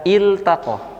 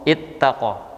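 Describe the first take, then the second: First: The L is pronounced clearly before the T. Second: The L is merged into a doubled T. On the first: The speaker calls it right. "maka dibaca iltaqo" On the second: The speaker calls it wrong. "bukan dibaca dengan ittaqo, yaitu dengan idgham"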